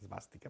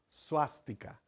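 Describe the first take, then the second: First: The word begins with an 'es' sound. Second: The word begins with a 'su' sound. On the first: The speaker calls it wrong. "en español la gente dice esvástica" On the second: The speaker calls it right. "la S y la V se pronuncia como su en sánscrito"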